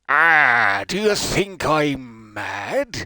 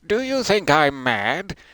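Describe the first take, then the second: First: It is said in Captain Hodgson's sailor voice. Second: It is said in the speaker's ordinary voice.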